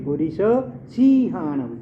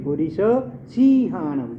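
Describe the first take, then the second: First: The 'si' vowel is drawn out long. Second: The same.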